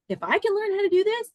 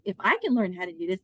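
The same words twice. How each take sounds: First: "if I can learn how to do this" pitched way up; high rising setup on "if I can learn"; emphatic repeat. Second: Said in the usual way. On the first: Retold or imitated. Repeating her argument for emphasis.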